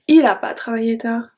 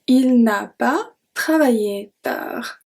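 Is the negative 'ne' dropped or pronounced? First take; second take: dropped; pronounced. First: The 'ne' is dropped from the negative. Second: The full negative with 'ne' is pronounced. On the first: Casual speech like a native speaker. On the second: Careful, formal speech.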